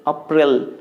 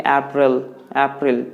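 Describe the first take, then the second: First: April said as "ah-PRIL"; old wrong pronunciation. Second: April as "AP-rul", stress first; correct pronunciation. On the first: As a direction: say April the mistaken way, "up-RIL". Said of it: "I used to say like". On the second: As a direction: model April with a front vowel, "AP-ril". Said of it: "You need to say like". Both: Shown as a demonstration.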